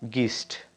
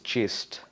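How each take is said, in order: First: It starts with a hard G sound. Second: It starts with a soft J sound. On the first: The speaker calls it wrong. "there is not gist, though G I R L is girl" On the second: The speaker calls it right. "it's gist"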